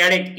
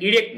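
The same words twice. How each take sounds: First: এরেক্ট with an open e sound, like "eh-rect"; correct pronunciation. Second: ইরেক্ট with a closed i sound, like "ee-rect"; wrong pronunciation. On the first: Teacher giving students the right form, এরেক্ট said as "eh-rect". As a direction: say এরেক্ট starting on "eh", not "ee". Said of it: "এখানে উচ্চারণ কিন্তু এরেক্ট". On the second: Teacher showing the form to avoid, ইরেক্ট said as "ee-rect". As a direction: say ইরেক্ট starting on "ee" as the mistake. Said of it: "ইরেক্ট না". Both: Shown as a demonstration.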